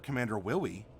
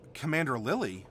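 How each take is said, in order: First: The name begins with a W-like sound. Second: The name begins with a clear L sound.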